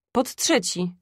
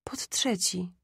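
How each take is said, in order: First: Said in the usual way. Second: Soft, whispery echo; sick mother repeating faintly; weak repetition. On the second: A narrator's reading. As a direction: confirm it under the breath, much softer. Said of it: "powtórzyła matka".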